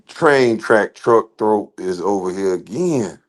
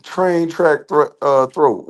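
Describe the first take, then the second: First: Slow, slurred "train track truck throat"; tripping over "train track truck throat"; tongue-twister stumble. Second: Very slow, syllable by syllable "Train track thro-, uh, throat"; careful retry. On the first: Viewer's name stumbled over slowly, words running together. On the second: Retrying a viewer's tongue-twister name, very slow and deliberate. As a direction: sound out "Train track" word by word. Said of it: "What is wrong?". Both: Real, not acted.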